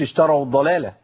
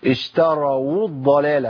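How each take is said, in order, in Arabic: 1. الواو في الآخر مبلوعة ولا تكاد تُسمع. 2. تُنطق الواو في الآخر بوضوح مع الضمة.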